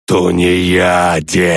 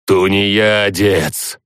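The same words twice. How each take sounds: First: Slow, drawn-out roar of the dead; roaring undead chorus. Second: Slow, drawn-out booming dead voice; thundering undead chorus. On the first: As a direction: roar it like a horde of corpses. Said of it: "взревели корабелы". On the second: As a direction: boom it out like a crowd of corpses. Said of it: "громыхнуло со всех сторон". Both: Acted.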